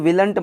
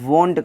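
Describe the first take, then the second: First: It is said with the vowel of will. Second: It is said with an o vowel. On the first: The speaker calls it wrong. "मत कहिएगा" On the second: The speaker calls it right. "कहिएगा"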